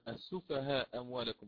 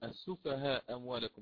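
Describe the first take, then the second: First: The vowel before the next word is short. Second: The vowel before the next word is short.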